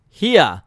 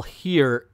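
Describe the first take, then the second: First: Mock Southern "Here", loud swoop, R dropped; bad Southern accent. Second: Said in the usual way. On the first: Shown as a demonstration. Reviewer mocking badly written dialect, fake Southern accent. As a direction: overdo a Southern drawl on "Here" as "heah". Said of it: "they spell here H E A H". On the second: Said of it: "it's like normal language, normal language".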